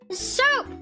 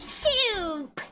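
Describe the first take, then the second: First: The word is said in a casual, natural way. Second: The word is carefully and clearly enunciated.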